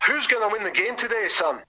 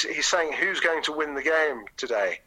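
First: High Scottish captain's voice; broad Scottish accent. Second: Said in the usual way. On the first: Retold or imitated. Captain asking the boy once more, broad Scottish accent. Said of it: "quite a broad Scottish accent". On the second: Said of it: "eventually I had to translate".

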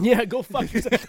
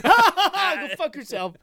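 First: Laughing, loud and higher. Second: Slow, drawn-out, laughing hard. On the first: Laughing at the joke. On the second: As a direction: stretch it out, cracking up. Repeating it, laughing harder. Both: Real, not acted.

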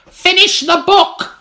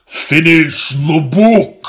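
First: High, slow, loud crone yell. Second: Slow, loud, lower demand; deeper. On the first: Old woman orders William, high slow loud yell. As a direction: bellow it like a shrieking old hag. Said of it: "she yelled". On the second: Old woman demands again on request, slow loud deeper command. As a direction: growl the order out slowly. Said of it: "deeper. Oh, deeper". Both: Acted.

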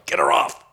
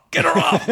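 First: Hushed urgent whisper. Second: High laughing call; laughing yell. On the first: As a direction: whisper it from the back. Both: Retold or imitated. Heckling his wife on stage.

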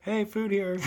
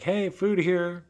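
First: High silly bait voice. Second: High, slow mock call to tigers. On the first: Pretend. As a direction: repeat it in a goofy voice. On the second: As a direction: call out slowly like bait. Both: Calling tigers to come eat.

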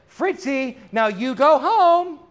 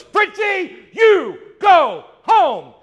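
First: Firmer lady to dog. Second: High, loud stamping shout at the dog; furious owner yelling at her yapping dog; frustrated shout. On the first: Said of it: "she turns around and she says". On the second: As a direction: put your foot down and yell the dog home. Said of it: "she finally gets frustrated". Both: Retold or imitated.

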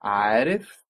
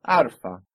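First: عارف said with its little i, rising; keep the vowel. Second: عارفة said without the i, falling; drop the vowel. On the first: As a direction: say عارف with the i between r and f. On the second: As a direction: say عارفة as arfa, no i. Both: Shown as a demonstration. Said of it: "we just lost it".

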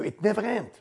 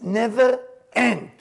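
First: Said in the usual way. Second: NEVER END stretched out slowly, pitched higher; emphatic repeat. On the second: Real, not acted. Teacher stressing to listeners how long the chewing lasted, emphatic.

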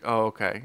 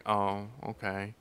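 First: Said in the usual way. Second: Slow and much softer, let down; mock deflated old man. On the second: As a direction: let the news sink in quietly. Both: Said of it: "He's like".

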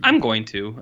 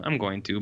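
First: Said in the usual way. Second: Same words dropped much softer; a softer echo of the first take; quieter repeat. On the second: Real, not acted. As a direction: say it again, trailing off under your breath.

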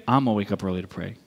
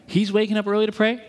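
First: Low, quick copycat answer; mock-determined echo, fast and much lower; copycat resolve. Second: Raised, rising setup line; observing a model. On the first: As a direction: drop the pitch and rattle it off. Copying friend, answering line. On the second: Retold or imitated. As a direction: lift it like noting what someone else does. Contrasts friend with his copying.

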